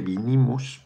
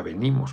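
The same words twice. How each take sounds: First: "vinimos" with a clear i in the first syllable, bi-ni-mos; quoting his mistake. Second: "venimos" with a clear e in the first syllable, be-ni-mos; correct form. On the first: Retold or imitated. Admitting a slip at Pachuca, quoting "vinimos". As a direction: repeat the mistaken "vinimos" with the i sound. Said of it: "me equivoqué". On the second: Shown as a demonstration. Correcting his slip for viewers, stating "venimos". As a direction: give the correct "venimos" with the e sound, rising.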